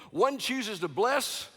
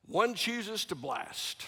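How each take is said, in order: First: "bless" slow and rising; contrast bless. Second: "blast" slow and falling; contrast blast. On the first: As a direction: lean on "bless" slowly, voice lifting. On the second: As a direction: drop down hard on "blast". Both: Shown as a demonstration.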